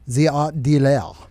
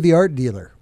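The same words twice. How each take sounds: First: It is said in a French accent. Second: It is said in a plain English accent.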